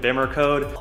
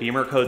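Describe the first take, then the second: First: The first vowel is short, like 'bim'. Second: The first vowel is long, like 'beam'.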